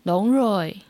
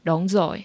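First: It is said in a soft southern Vietnamese accent. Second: It is said in the northern, standard Vietnamese accent.

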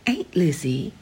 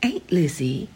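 First: It is said with a Southern accent. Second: The same.

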